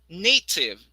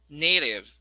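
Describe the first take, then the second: First: The middle T is a crisp T sound. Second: The middle T sounds like a quick D. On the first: "the first version is the British" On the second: "the next one is American"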